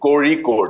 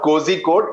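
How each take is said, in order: First: The middle consonant is made with a curled tongue. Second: The middle consonant is a plain z sound. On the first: The speaker calls it right. "You need to roll the tongue downwards" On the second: The speaker calls it wrong. "it's not cozy code"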